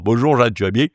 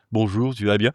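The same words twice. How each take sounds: First: Put-on the same stock southern French accent, lightly pushed; southern French accent as a comic trademark; exaggerated southern accent. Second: Neutral Parisian accent, southern twang dropped; understated Parisian accent for a snooty type; accentless Parisian French. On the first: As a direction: play up the southern French twang a little. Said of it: "tu as toujours le même accent". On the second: Shown as a demonstration. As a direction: say it in even, standard Parisian French. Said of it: "c'est l'accent parisien sans accent".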